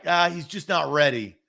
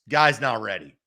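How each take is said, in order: First: It is said in a casual, mild tone. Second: It is said in a blunt, serious tone.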